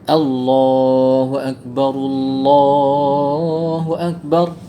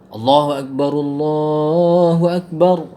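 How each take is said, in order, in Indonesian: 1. 'Allah' yang pertama dibaca panjang. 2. 'Allah' yang pertama dibaca pendek. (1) "dengan yang cara yang betul beginilah" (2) "Contoh yang tak panjang begini"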